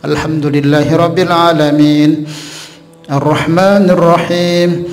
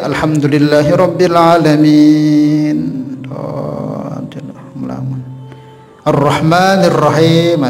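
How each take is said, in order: First: Only a breath-length pause separates the two phrases. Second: A long pause separates the two phrases. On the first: The recitation stays continuous and valid. The speaker calls it right. "Itu cuman batasannya seperti itu" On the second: The recitation is broken and the prayer may be void. The speaker calls it wrong. "bisa batal sembahyangnya nanti ya"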